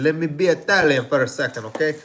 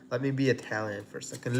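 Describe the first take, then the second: First: Hammed-up Italian accent, louder; mock Italian accent. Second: Said in the usual way. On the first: Shown as a demonstration. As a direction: play it like a cartoon Italian chef, louder. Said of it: "if that was a good accent".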